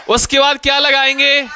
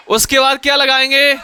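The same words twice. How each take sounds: The two takes are said the same way.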